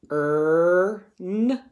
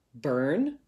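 First: "B-er-n" said sound by sound, each part split apart; segmented spelling sounds. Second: Said in the usual way. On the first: Shown as a demonstration. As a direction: break "B-er-n" into its separate sounds. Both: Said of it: "could I write it this way".

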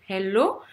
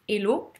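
First: HELLO with a breathed H at the start; aspirated H. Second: HELLO with the H dropped, as 'ello'; French-accented HELLO, no breath at the start; silent H. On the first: Coach contrasting two greetings, HELLO with aspirated H. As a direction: sound the H in HELLO. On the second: Coach contrasting two greetings, HELLO with silent H. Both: Shown as a demonstration. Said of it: "on entend le H aspiré ou on l'entend pas".

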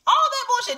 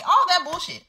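First: Much higher, louder incredulous scoff. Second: Higher exasperated scoff. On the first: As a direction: shoot up high in disbelief. Repeats phrase much higher. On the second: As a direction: toss it off high and fed up. Repeats phrase, higher again. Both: Real, not acted.

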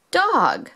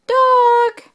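First: Said in the usual way. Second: High, loud "dog"; excited. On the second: Shown as a demonstration. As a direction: call out "dog" brightly. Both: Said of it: "phonics word".

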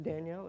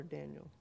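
First: Danielle said as dan-YELL; stress on second syllable. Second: Daniel said as DAN-yul; stress on first syllable. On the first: Planner asking which way the street is said, Danielle stressed at the end. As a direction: put the weight on the end of Danielle. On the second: Planner offering the other street pronunciation, Daniel stressed up front. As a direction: put the weight on the start of Daniel. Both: Shown as a demonstration. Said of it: "trying to figure that out".

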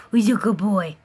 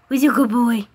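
First: Hushed doting whisper. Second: Eager cooing at a pet; excited pet talk. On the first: Cooing at pet. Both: Real, not acted.

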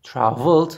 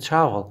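First: Traveled, said clearly with the final d; past form traveled. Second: Travel, said clearly with no ending; base form travel. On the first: Teacher showing the past form to the class, clearly. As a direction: stress the past ending of Traveled. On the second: Teacher giving the base verb to the class, clearly. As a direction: drop the d and say plain Travel. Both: Shown as a demonstration. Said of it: "ئەی گۆڕینەوە بە ئەس".

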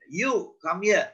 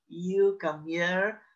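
First: High, brisk commanding call; mock captain's summons. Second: Slow, drawn-out mock summons; lightly mocked slow command. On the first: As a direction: order someone over, pitched up. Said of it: "This is my commanding finger". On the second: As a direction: stretch out a half-hearted order. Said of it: "don't use your little finger". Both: Shown as a demonstration.

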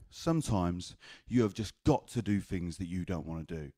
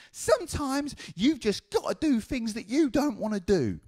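First: Said in the usual way. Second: Very high mock grandma screech; grandma's lecture. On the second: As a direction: lay down the law in grandma's high voice. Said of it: "it was like this".

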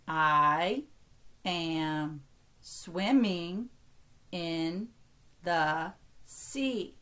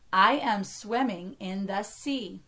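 First: Drawn-out words with gaps between. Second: Said in the usual way. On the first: Shown as a demonstration. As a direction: count out each word slowly, keeping words whole. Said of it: "only count each word as one". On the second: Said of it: "count how many words".

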